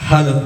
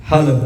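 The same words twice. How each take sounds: No difference in how they are said.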